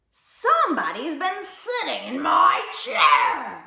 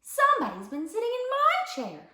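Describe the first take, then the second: First: Slow, loud, grouchy growl; grouchy bear growl. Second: High mama bear voice; middle-sized mama bear. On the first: Big bear finds his chair used, growling grouchily. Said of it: "growled the big bear in his great big grouchy voice". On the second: Mama bear finds her chair used, middle-sized voice. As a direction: lift it into a mama bear's register. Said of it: "said the mama bear in her middle-sized voice". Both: A narrator's reading.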